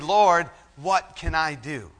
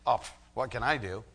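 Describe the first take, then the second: First: It sounds like an earnest, sincere plea. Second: It sounds like an idle, rhetorical sigh.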